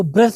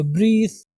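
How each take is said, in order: First: ब्रेथ with a short "e"; wrong pronunciation. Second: ब्रीथ with a long "ee"; correct pronunciation. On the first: Teacher warning learners, ब्रेथ with short "e". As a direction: say ब्रेथ like the noun "breath". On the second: Teacher correcting learners, ब्रीथ with long "ee". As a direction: stretch ब्रीथ as "breeth". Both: Shown as a demonstration. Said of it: "इसको ब्रेथ नहीं पढ़ेंगे".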